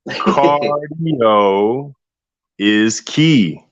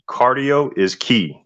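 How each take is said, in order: First: The phrase is said more slowly. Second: The phrase is said at a normal pace.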